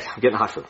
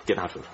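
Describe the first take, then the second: First: Said in the usual way. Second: Much softer, fading mumble; trailing mutter. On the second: Acted. Doctor trailing off as he leaves, much softer. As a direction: mumble it to yourself as you go.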